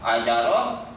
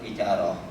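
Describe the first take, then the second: First: The first vowel is an open 'a'. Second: The first vowel is an 'i'.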